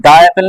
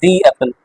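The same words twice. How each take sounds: First: "the apple" with the as "duh"; wrong "the". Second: "the apple" with the as "dee"; long ee in "the", gliding into apple; correct "the". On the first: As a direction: open duh vowel in "the" before apple. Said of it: "तो उसको the apple नहीं बोलेंगे". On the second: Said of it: "इसे बोलेंगे the apple". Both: Shown as a demonstration.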